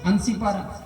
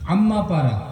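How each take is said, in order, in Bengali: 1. প্রথম শব্দটি Ansi হিসেবে উচ্চারিত হয়। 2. প্রথম শব্দটি Amma হিসেবে উচ্চারিত হয়।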